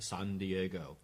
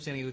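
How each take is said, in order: First: It is said slowly. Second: It is said fast.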